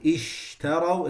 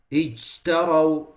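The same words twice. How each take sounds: First: Ishtaraw with an open sh; correct sheen. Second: Ijtaraw with sh near a j; closed-mouth ijtaraw, sh toward j; confined sheen. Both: Shown as a demonstration. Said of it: "it becomes".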